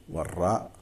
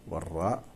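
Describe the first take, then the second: The two takes are said the same way.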